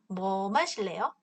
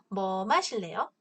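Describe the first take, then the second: Both takes have the same delivery.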